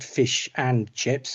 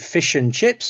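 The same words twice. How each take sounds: First: Each word is said separately and fully. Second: The words link and 'and' is reduced. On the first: The speaker calls it wrong. "not fish and chips" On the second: The speaker calls it right. "connected speech. So we say fish and chips"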